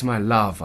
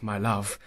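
First: Louder, falling on love; fond address. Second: Said in the usual way. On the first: Acted. Lover calling Sue, louder with a falling my love. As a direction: lean into my love with a firm drop.

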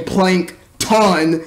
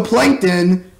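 First: "Plankton" said slowly as plank-TAHN; second syllable emphasized. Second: Said in the usual way. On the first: Shown as a demonstration. Announcing the mutated character's new name, "Plankton" as a slow plank-TAHN. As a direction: give "Plankton" a full, open "tahn" ending.

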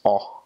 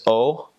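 First: O said "aw"; open O. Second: O as in "oh"; long O. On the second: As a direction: say O as a closed, rounded "oh". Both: Shown as a demonstration. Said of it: "that's how you pronounce it".

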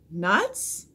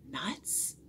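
First: Voiced, questioning repeat of "Nuts?"; puzzled echo. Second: Much softer, hushed question; whispered echo. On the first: Priscilla repeats Jack's strange word, puzzled. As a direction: say it aloud as a baffled question. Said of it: "repeated Priscilla". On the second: Onlookers echo the strange word, whispering. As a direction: murmur "Nuts?" under the breath, questioning. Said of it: "whispered the others". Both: A narrator's reading.

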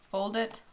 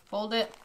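No difference in how they are said.

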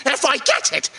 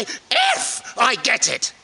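First: Said in the usual way. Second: Slow, with "if" leaned on hard; slower repeat, heavy emphasis on "if"; stress on "if". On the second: Real, not acted. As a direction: set "if" apart and weight it. Repeats himself to stress the condition.

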